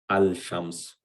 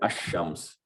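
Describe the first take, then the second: First: The 'l' is clearly sounded before 'shams'. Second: The 'l' merges into a doubled 'sh' sound. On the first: The speaker calls it wrong. "we don't say al shams" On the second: The speaker calls it right. "we say ash-shams"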